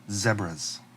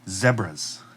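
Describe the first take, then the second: First: It is said in a British accent. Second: It is said in a British accent.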